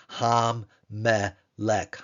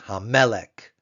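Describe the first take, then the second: First: Very slow "Ham-melech," with doubled m; Hebrew ham-melech. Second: "Hamelech." said louder, falling; Hebrew hamelech. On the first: Teacher shows the doubled mem to class, very slowly. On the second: Teacher reads the whole word for students, louder. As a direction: read "Hamelech." at normal speed. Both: Shown as a demonstration. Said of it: "Hey with the patak, followed by the dagesh forte".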